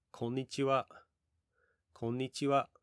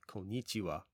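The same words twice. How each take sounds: First: "Konnichiwa" with the pitch raised and kept high at the end; correct Japanese intonation. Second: "konnichiwa" with an English-style falling tune, dropping at the end; wrong intonation. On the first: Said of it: "notice I'm raising my intonation and keeping it high at the end". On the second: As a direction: demo the learner's mistake: "konnichiwa" sliding down at the end. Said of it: "a lot of people who may not know Japanese pronunciation very well might say". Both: Shown as a demonstration.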